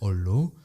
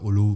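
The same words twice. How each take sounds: First: The L sound in the middle is long. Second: The L sound in the middle is short. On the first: The speaker calls it right. "quand on a deux consonnes, donc là deux L, on les prononce" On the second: The speaker calls it wrong. "on dit pas hollow"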